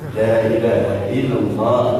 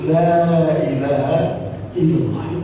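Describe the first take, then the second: First: It is said quickly, vowels clearly shortened. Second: It is said slowly with full long vowels. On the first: The speaker calls it wrong. "Masuk gigi dua itu kan" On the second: The speaker calls it right. "itu benar"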